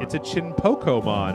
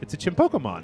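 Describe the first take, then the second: First: It is said slowly and carefully. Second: It is said at normal speed.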